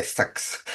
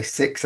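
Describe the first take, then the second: First: Badly imitated New Zealand vowel, "sex" for six; terrible Kiwi accent. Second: Said in the usual way. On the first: Shown as a demonstration. Showing how Kiwis talk, in a rough Kiwi accent. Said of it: "that's a terrible accent". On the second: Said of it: "they're gonna say six".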